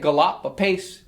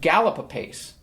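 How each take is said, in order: First: The stress falls on the second syllable of gallop. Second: The stress falls on the first syllable of gallop. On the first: The speaker calls it wrong. "You wouldn't say gallop apace" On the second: The speaker calls it right. "She says, gallop apace"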